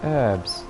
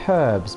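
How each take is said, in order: First: The word starts without an h sound. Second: The word starts with an h sound. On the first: The speaker calls it wrong. "America, you say you say herbs" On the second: The speaker calls it right. "Britain, we say herbs because there's a fucking H in it"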